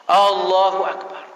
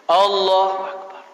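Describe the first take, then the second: The two takes are said the same way.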